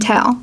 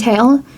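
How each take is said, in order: First: The vowel is a short E sound. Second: The vowel is a long A sound. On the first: "to short E, as in tail" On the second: "the long A, as in tail"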